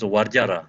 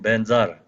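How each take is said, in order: First: It starts with a v and has a j sound. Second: It starts with a b and has a z sound. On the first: "Sanskrit pronunciation" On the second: "called Tibetan pronunciation"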